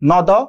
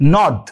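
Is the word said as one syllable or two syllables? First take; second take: two syllables; one syllable. First: The word is split into two separate syllables. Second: The word is said as one single syllable. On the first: The speaker calls it wrong. "তা তো বলি না" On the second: The speaker calls it right. "পুরোটা একবারে উচ্চারণ করে ফেলছি"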